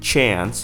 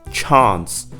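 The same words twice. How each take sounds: First: The vowel sounds like the one in 'yeah'. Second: The vowel sounds like an open 'ah'. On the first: "In the second one, it sounded yeah" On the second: "in other accents, they retain the ah sound"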